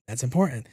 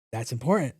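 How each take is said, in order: Both takes have the same delivery.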